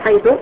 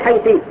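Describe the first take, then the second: First: The word ends with a final u vowel. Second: The word ends with a final i vowel. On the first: "تبنيها على الضم" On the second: "على الكسر"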